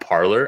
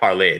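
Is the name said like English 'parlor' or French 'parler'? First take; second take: English parlor; French parler. First: It sounds like the English word parlor. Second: It is said the French way, like parlay. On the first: The speaker calls it wrong. "Americans specifically, pronounce that app Parlor" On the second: The speaker calls it right. "Clearly, it's it's French, right? Like parler"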